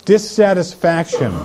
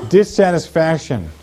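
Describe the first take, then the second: No difference in how they are said.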